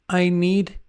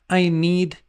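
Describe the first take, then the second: No difference in how they are said.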